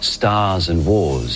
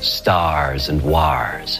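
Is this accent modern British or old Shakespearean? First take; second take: modern British; Shakespearean. First: It is said in a modern standard British accent. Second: It is said in an older Shakespearean-era accent. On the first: "in received pronunciation" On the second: "in original pronunciation"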